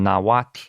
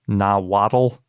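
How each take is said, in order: First: Two syllables, ending in a hissy lateral fricative. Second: Three syllables, ending in a plain 'tul' sound. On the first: It is the native way of saying the name. The speaker calls it right. "as best I can pronounce the language" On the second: It is the usual English way of saying the name. The speaker calls it wrong. "that we usually pronounce"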